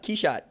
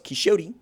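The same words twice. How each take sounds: First: The name is said in the French way. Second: The name is said in a non-French way. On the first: The speaker calls it right. "no, it's Quichotte" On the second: The speaker calls it wrong. "like everybody else"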